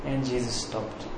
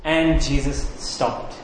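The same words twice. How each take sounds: First: Very soft, low and slow; hushed repetition. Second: Slow, weighted statement; deliberate narration. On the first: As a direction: drop right down for a hushed echo. Hushed repeat for dramatic effect. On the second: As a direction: draw the words out for gravity. Dramatic first telling of the halt. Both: A narrator's reading.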